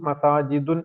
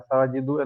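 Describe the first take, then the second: First: The word ends with an added n sound. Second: The word ends on a short u vowel. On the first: The speaker calls it wrong. "നമ്മൾ മസാജിദുൻ മസാജിദുൻ എന്ന് പറയില്ല" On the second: The speaker calls it right. "മസാജിദു എന്നേ പറയുള്ളൂ"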